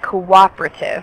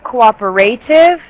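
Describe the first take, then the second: First: The vowel after the p is dropped. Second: The vowel after the p is fully pronounced. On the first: The speaker calls it right. "it's more like cooperative. Like the E is silent" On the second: The speaker calls it wrong. "instead of cooperative"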